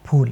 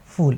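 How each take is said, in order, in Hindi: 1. यह हल्की साँस वाले प से शुरू होता है, होंठ बंद। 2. यह फ़ से शुरू होता है, होंठ अलग। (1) "फ यानी कि आपके जो होंठ हैं वो मिलने चाहिए" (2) "अगर फ के नीचे नुक्ता लगाया आपने"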